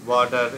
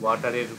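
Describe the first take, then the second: First: The word is said in an American accent. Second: The word is said in a British accent. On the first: The speaker calls it wrong. "আমেরিকানরা যে ওয়াটার এরকম একটা উচ্চারণ করে" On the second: The speaker calls it right. "ওয়াটারের পরিবর্তে"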